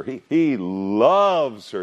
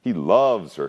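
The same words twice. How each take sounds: First: "loves" stretched out slow and higher, sighing; "he loves her" drawn out, with "loves" leaned on long; stress on loves. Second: Said in the usual way. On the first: Shown as a demonstration. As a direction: linger on "loves" as if swooning. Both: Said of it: "notice the repetition of the word love".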